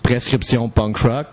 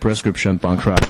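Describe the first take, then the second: First: It is said with a French accent. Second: It is said with an English accent. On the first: "you can do it French and English" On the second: "you can do it French and English"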